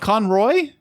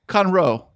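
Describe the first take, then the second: First: The name ends with an 'oy' sound. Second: The name ends with an 'oh' sound. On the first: The speaker calls it wrong. "I wrote it down wrong" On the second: The speaker calls it right. "It's Conroe"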